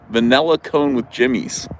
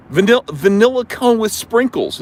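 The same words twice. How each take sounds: First: Vanilla said va-NELL-a, in the usual pitch; Jersey pronunciation. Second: High mimicking voice, vanilla with short i; imitated standard vanilla. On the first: Shown as a demonstration. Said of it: "All this Jersey stuff". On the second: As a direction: mimic her va-NIL-la in vanilla. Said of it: "she goes".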